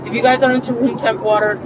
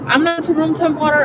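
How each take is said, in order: First: Said in the usual way. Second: "into" lifted much higher and leaned on; stress on into. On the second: Shown as a demonstration. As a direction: hit "into" high and hard, pushing it away.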